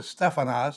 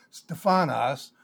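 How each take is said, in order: First: Stephanos said STEFF-ah-nos; stress on first syllable. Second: Stephanos said steh-FAH-nos; stress on second syllable. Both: Shown as a demonstration. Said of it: "depending on where you put the accent".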